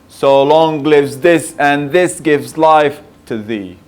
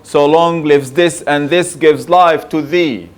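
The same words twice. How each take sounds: First: The voice falls away on the final 'thee'. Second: The final 'thee' carries strong stress.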